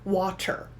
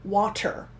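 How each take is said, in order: First: The middle consonant is a clear T sound. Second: The same.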